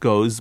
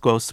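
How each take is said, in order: First: It ends with a z sound. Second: It ends with an s sound. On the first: "we have it quite frequently" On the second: "which they pronounce routinely as an S"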